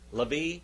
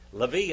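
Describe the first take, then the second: First: The name is said the modern Hebrew way. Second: The name is said the modern Hebrew way.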